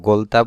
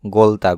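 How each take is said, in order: Both takes have the same delivery.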